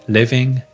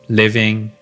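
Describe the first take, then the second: The two takes are said the same way.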